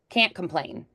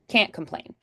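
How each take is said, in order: No difference in how they are said.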